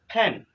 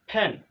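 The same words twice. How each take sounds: No difference in how they are said.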